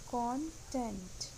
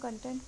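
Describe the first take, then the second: First: The first vowel sounds like 'cot'. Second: The first vowel sounds like 'cup'. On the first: The speaker calls it right. "इसका सही pronunciation है कॉन्टेंट" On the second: The speaker calls it wrong. "इसको normally हम कंटेंट बोलते हैं but it is not right"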